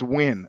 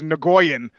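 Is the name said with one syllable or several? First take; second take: one; several. First: The name is said as one syllable. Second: The name is said with several syllables. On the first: The speaker calls it right. "Man, it's Win" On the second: The speaker calls it wrong. "a name I used to pronounce as Nagoyan"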